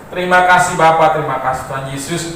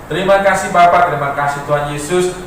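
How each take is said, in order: No difference in how they are said.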